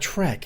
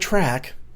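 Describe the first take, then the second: First: The vowel sounds like the one in trek. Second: The vowel sounds like the one in track. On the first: The speaker calls it right. "they're going to Trek" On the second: The speaker calls it wrong. "I've been saying track for years"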